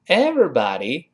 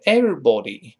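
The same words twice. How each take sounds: First: American everybody with an open a in body. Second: British everybody with a rounded o in body. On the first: Teacher contrasts American everybody. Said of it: "在这是美式发音". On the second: Teacher contrasts British everybody. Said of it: "英式发音是everybody". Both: Shown as a demonstration.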